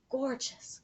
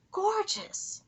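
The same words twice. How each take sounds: First: Said in the usual way. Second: Gorgeous! rising high in delight; high excited Gorgeous!; excited, higher gorgeous. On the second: Real, not acted. Reacting to night sky.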